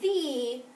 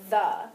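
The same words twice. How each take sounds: First: The vowel is a long ee sound. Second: The vowel is a short uh sound. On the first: "we could code it the way that we know how and make it the, but most of the time we don't say it that way" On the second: "So we want to learn how to code it the"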